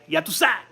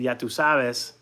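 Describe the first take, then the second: First: It is said Dominican-style, with the ending cut off. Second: Every word is said in full.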